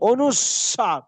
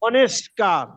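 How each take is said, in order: First: It is said with 'swa' in the middle. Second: It is said with 'ske' in the middle. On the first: The speaker calls it right. "হবে অনুস্বার" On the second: The speaker calls it wrong. "আমরা বলি অনেস্কার"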